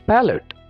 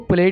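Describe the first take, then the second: First: A clear vowel separates the p and l. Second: The p and l run together without a vowel. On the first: The speaker calls it right. "बल्कि ये होगा पैलेट" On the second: The speaker calls it wrong. "इसको प्लेट नहीं बोलना"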